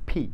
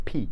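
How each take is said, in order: The two takes are said the same way.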